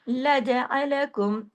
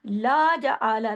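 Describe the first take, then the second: First: ला जा अलकुम with each vowel one short beat; short single vowels. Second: ला जा आला with every vowel dragged to a long aa; wrongly lengthened vowels. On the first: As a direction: recite ला जा अलकुम without alif stretches. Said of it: "सब एक एक हैं". (ला जा अलकुम, हर हरकत छोटी और बराबर) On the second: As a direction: mistaken alif stretch on ला जा आला. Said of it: "नहीं पढ़ना". (ला जा आला को गलत तरह से अलिफ लगाकर खींचा हुआ) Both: Shown as a demonstration.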